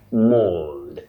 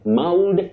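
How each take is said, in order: First: The vowel is a long O sound. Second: The vowel is not a long O sound. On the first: The speaker calls it right. "represent the long sound O" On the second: The speaker calls it wrong. "you don't say mauled. Mauled, common"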